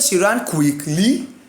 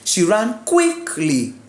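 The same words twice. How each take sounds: First: The stress is on the second syllable of quickly. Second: The stress is on the first syllable of quickly. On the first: The speaker calls it wrong. "You cannot say she ran quickly. Wrong" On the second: The speaker calls it right. "Put the force on that first syllable"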